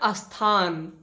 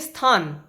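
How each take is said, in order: First: An extra vowel is added before the cluster. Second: The word starts directly with the consonant cluster. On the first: The speaker calls it wrong. "लेकिन लोग बोलते हैं अस्थान" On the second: The speaker calls it right. "इसका उच्चारण होना चाहिए स्थान"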